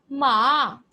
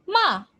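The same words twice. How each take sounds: First: "ma" drawn out, dipping then rising; Mandarin dipping tone. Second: "ma" high, then sharply falling; Mandarin falling tone. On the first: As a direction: let "ma" sink and climb back up. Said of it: "And if I say". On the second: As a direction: drop "ma" quickly from a high pitch. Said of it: "I use it saying". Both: Shown as a demonstration.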